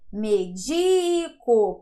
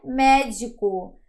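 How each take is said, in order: First: The stress is on the second syllable. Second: The stress is on the first syllable. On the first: I medicate (a verb). "Medico, paroxítona" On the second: A doctor (a noun). "já é médico. Proparoxítona"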